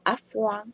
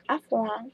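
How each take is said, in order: First: Au revoir said softly in French, r in the throat; French goodbye demo. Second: Au revoir repeated softly with French vowels; softly voiced French goodbye. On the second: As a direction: model au revoir gently for learners. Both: Shown as a demonstration. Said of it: "来教大家一句法文的再见".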